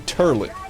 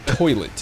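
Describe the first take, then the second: First: The first syllable has an 'ur' vowel. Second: The first syllable has an 'oy' vowel. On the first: "They say turlet" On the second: "They don't say toilet"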